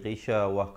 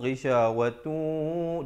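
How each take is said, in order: First: The word ends in a soft h sound. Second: The word ends in a tu sound. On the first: The reciter stops after this word. "Ta marbutah kalau waqaf dia menjadi mati" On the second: The reciter carries on into the next word. "Kalau sambung ghisyawatu"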